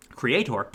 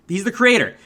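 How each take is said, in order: First: Soft, low "Creator" with a full "-tor"; odd pronunciation. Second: Said in the usual way. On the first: Real, not acted. Reviewer echoing own odd word, "Creator" with a full -tor. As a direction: murmur "Creator", sounding out the final "or". Repeats odd form before usual one.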